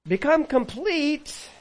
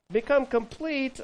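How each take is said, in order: First: Drawn out high and slow; slow, soaring proclamation; proclaimed. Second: Said in the usual way. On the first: Acted. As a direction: ring it out like a proclamation. Preacher proclaiming command.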